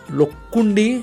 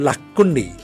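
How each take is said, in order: First: The first vowel sounds like 'o'. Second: The first vowel sounds like 'a'. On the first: "Lo or La" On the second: "Lo or La"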